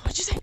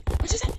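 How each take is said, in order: First: Loud breathy mock threat; mock threatening whisper. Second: Higher, louder mock outrage; mock outraged shout. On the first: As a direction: pretend to be offended. Mock offended at insult. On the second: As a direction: play up the offense loudly. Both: Real, not acted.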